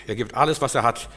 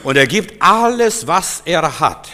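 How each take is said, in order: First: Said in the usual way. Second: Loud, high, slow on was er hat; emphatic proclamation. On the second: Shown as a demonstration. Preacher stressing the Samaritan's total giving, loud and emphatic. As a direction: proclaim it with full force.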